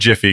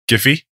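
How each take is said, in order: First: The word begins with a J sound. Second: The word begins with a hard G sound. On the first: The speaker calls it wrong. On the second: The speaker calls it right.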